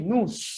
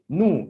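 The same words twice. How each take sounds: First: A final S sound is pronounced at the end. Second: No final S sound is pronounced at the end. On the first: The speaker calls it wrong. "We don't say nous" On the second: The speaker calls it right. "We say nous"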